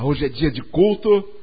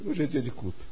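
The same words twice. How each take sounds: First: It is said in a glad, eager tone. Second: It is said in a weary, reluctant tone. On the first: The person looks forward to the service. The speaker calls it right. "Ao invés de falar, oba" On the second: The person sees the service as a burden. The speaker calls it wrong. "a pessoa fala, ih"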